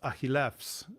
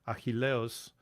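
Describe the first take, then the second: First: The name ends with an 'fs' sound. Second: The name ends with an 'os' sound. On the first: This is the modern Greek pronunciation. "whereas it's Achillefs in in modern Greek" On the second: This is the reconstructed scholarly pronunciation. "in the Erasmian pronunciation, he pronounced it"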